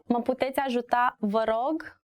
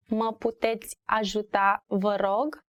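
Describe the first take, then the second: First: Said in the usual way. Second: Careful repetition. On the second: Shown as a demonstration. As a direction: say it carefully for learners, spacing the words. Teacher repeats phrase for learners.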